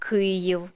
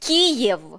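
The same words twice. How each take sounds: First: The name has its Ukrainian pronunciation. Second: The name has its Russian pronunciation. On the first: "а" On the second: "не"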